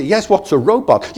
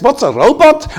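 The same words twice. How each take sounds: First: Said in the usual way. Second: High, astonished echo of the question; incredulous echo. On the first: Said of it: "I say". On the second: Retold or imitated. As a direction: repeat it back high, amazed. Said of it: "And he says".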